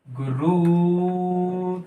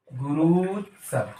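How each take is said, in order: First: गुरुत्सव drawn out very slowly; slow sounding out. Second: गुरुत्सव a little lower, slow and falling; settled repeat. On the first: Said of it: "teacher sounds out answer". (गुरुत्सव को बहुत धीरे खींचकर बोलें) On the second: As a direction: confirm गुरुत्सव, dropping to a close. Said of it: "teacher repeats answer". (गुरुत्सव को नीचे उतरते स्वर में पक्का करें) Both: Shown as a demonstration.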